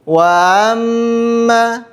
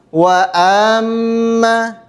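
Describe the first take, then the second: Both takes have the same delivery.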